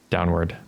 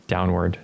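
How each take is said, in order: Both takes have the same delivery.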